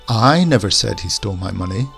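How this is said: The stress falls on the word I. Someone else said it, but not me. "we'll put the emphasis on the I"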